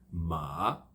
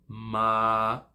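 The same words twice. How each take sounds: First: The pitch falls and then rises. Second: The pitch stays level throughout. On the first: "você desce e sobe" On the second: "você segura ele numa, num tom reto"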